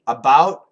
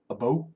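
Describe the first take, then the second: First: The vowel is a standard American 'ow' sound. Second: The vowel starts closer to an 'o' sound. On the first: "Canadian friends who say about just like me" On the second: "many Canadians up north who say about"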